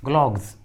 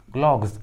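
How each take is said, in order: Both takes have the same delivery.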